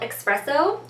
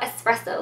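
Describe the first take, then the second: First: The word starts with an 'ex' sound. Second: The word starts with an 'ess' sound. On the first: It is the name of the nail polish color. "I'm not saying it wrong, it's an X in there" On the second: It is the name of the coffee drink. "like the coffee"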